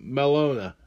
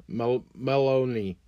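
First: "Melona" with a final "a", mɛ-LO-na; trying "Melona" as a guess; unsure pronunciation. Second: "Meloni" slowly, ending in "i", after a false start; self-corrected pronunciation. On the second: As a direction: restart and land on "Meloni". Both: Real, not acted. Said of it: "I can't pronounce her name".

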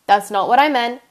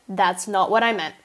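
First: Louder "That's not what I meant"; loud, flustered correction; emphatic. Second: Said in the usual way. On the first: Real, not acted. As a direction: blurt the correction out. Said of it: "correcting herself, louder take". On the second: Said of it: "repeated plain".

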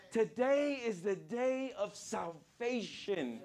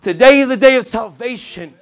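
First: Soft, slow, drawn-out repeat; hushed proclamation. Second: Shouted sermon declaration, higher pitched; loud proclamation. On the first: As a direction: let it sink in, softly and slowly. Preacher repeats the key line softly. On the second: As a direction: belt it out to the whole congregation. Preacher proclaims the key line. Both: Real, not acted.

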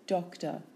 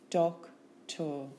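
First: Said in the usual way. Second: "Doctor" split into doc, tor; syllable by syllable. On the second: Shown as a demonstration. Teacher giving syllables for spelling, Doctor in two beats.

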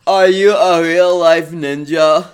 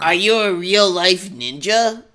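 First: A louder, slow dopey drawl; Forrest Gump-like Chris. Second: A slow, lightly voiced whiny boy; Chris voice. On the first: Acted. Chris asks Naruto, voiced like Forrest Gump, loud and slow. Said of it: "he's Forrest Gump". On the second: Shown as a demonstration. Reader tries Chris's voice for his friend, slow and dopey. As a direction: ask it slowly like a dopey kid. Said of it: "do that voice again".

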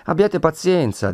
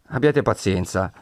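First: Soothing notary. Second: Said in the usual way. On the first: Acted. Notary soothing the bound Renzo.

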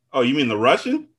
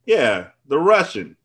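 First: "Russian" rising as a question. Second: "Russian" falling, slow and settled; confirming. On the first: Ryan checking who Cyril means, questioning. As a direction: ask it, lifting the end of "Russian". Acted question in retold dialogue. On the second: Cyril answering Ryan's question about the guy, confirming. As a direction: confirm it slowly, dropping the end of "Russian". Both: Acted.

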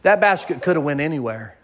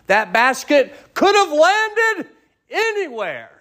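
First: Said in the usual way. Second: "That basket could have landed anywhere" lifted high and slow, stretching "have"; emphatic preaching. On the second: Acted. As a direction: drag out "have landed anywhere" with soaring pitch. Repeated line, preached high and slow.

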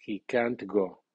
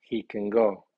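First: "can't" fully accented with a clear T; strong stress on can't. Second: "can" short and unstressed, main stress on "go"; falling statement with a reduced "can"; weak can. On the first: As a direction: lean on "can't", then fall on "go". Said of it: "las palabras negativas llevan acento fónico fuerte". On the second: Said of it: "con acento débil". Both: Shown as a demonstration.

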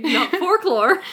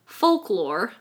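First: Folklore said as FORK-lore, laughing; mock mispronunciation. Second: Folklore said clearly as FOLK-lore; correct pronunciation. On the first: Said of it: "For the millionth time". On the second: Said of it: "Thank God I said folklore". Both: Shown as a demonstration.

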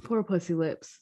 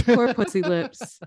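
First: Much softer, murmured pity; soft mock pity. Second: Drawn-out mock pity, rising at the end; mock sympathy. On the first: Co-host murmuring the nickname again in soft mock pity. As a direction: mutter it under your breath with fake sorrow. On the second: Co-host echoing the nickname in slow mock pity. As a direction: coo it slowly like pitying a pet.

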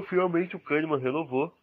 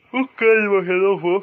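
First: Said in the usual way. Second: High, loud, happy outburst; excited. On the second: Acted. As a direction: cheer the news out. Celebrates a contract renewal.

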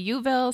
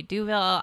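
First: Youville said with an opening "you"; alternative pronunciation. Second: Duville said with an opening "doo"; alternative pronunciation. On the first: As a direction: begin Youville on a y sound. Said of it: "Some people u-, say". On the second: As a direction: begin Duville on a d sound. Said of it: "people say Duville". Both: Shown as a demonstration.

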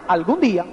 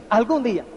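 First: Deeper, mock dwarf voice filing away the wish; the dwarves noting it. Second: Smiling wish. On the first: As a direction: lower voice of little dwarves jotting "Algún día". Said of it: "Los enanos hacen". (voz más grave de enanito que anota "Algún día") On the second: Shown as a demonstration. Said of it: "y entonces te sonríes".

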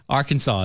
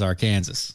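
First: "Arkansas" said as AR-kun-saw; standard Arkansas. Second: "Arkansas" said as our-KAN-zis; Kansas inside Arkansas. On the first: Host equating two pronunciations, "Arkansas" as AR-kun-saw. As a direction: pronounce "Arkansas" ending in saw, silent s. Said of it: "Arkansas is Arkansas". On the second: Host equating two pronunciations, "Arkansas" as Our-Kansas. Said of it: "because Kansas is in the name". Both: Shown as a demonstration.

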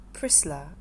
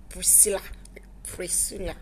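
First: "Priscilla" clipped to two soft syllables, Prislah; pastor's fond Priscilla. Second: "Priscilla" whispered, tongue twisting it unsure; soft hesitant "Priscilla" with a twist; uncertain twisted Priscilla. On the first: Pastor calling his daughter in faith fondly. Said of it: "That one used to melt my heart". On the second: Daughter mimicking mother's unsure "Priscilla" in a whisper. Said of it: "there's this twist". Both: Retold or imitated.

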